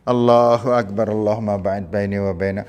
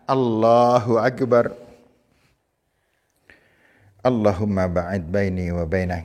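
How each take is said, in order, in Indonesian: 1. Langsung berlanjut tanpa jeda. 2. Ada jeda singkat setelah 'Allahu Akbar'. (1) "Yang salah ini yang salah" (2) "Jadi diam sejenak namanya tumak ninah. Diam sejenak baru membaca"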